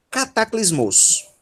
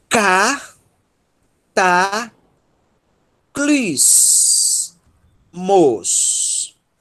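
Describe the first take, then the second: First: Said in the usual way. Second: Cataclismos drawn out very slowly, a pause after each syllable. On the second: Shown as a demonstration. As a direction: break "cataclismos" into four long, separate syllables. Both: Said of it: "vou começar a ler um pouco mais rápido".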